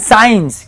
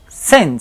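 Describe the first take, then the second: First: The vowel sounds like the word 'eye'. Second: The vowel sounds like the one in 'sin'. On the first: The speaker calls it wrong. "no digan signs" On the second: The speaker calls it right. "suena igualito que pecados"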